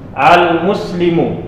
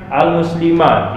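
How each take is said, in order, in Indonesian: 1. Kata itu diakhiri dengan vokal u. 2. Kata itu diakhiri dengan vokal a. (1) "mimnya dibaca dia baris dhammah" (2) "Tidak dibaca dia"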